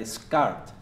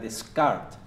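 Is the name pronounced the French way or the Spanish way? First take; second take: French; French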